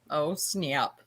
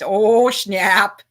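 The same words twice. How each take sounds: First: It is said in the speaker's ordinary voice. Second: It is said in a put-on character voice.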